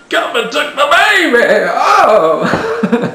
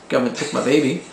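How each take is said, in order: First: It is said in an altered character voice. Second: It is said in a plain voice.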